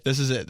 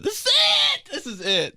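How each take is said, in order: First: Said in the usual way. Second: Squeaky hype. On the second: Shown as a demonstration. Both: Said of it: "Okay, my awkward ways".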